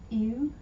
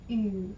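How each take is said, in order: First: The vowel is a plain back 'oo' sound. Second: The vowel is a fronted, rounded 'ü' sound. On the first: The speaker calls it wrong. "instead of saying ew" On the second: The speaker calls it right. "you're going to say ew"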